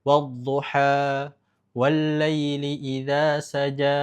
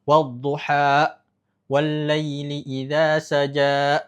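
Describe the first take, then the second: First: Wad-duha and saja slow, the final a allowed to flow out; flowing endings. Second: Wad-duha and saja slow, each ending in an added glottal catch; added hamzah. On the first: Teacher showing the correct flowing ending in Ad-Duha. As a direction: let duha and saja trail off naturally. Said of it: "dibiarkan mengalir". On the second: Teacher showing the wrong added hamzah in Ad-Duha. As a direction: chop off the ends of duha and saja with a stop. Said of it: "maka jangan ditambahkan hamzah". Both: Shown as a demonstration.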